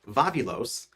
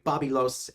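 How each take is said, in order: First: The name is said with V sounds. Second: The name is said with B sounds.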